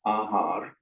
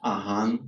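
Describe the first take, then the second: First: The word ends with an r sound. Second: The word ends with an n sound. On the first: "they'll actually drop off the last syllable" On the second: "if a word ends in a r, it's pronounced as a n"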